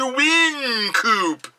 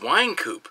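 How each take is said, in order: First: The first syllable sounds like 'win'. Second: The first syllable sounds like 'wine'. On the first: The speaker calls it wrong. "It's like when people go" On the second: The speaker calls it right. "No, it's Winecoop"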